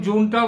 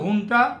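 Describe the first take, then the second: First: The word begins with a J sound. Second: The word begins with an H sound. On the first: "এখন জুনটা বলে" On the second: "জয়ের জায়গায় আসে হ"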